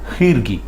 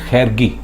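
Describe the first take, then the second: First: The first vowel is an 'i' sound. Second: The first vowel is not an 'i' sound. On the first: The speaker calls it right. "इसमें खे के नीचे ज़ेर है" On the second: The speaker calls it wrong. "कई लोग बोलते हैं"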